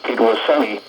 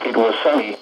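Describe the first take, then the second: No difference in how they are said.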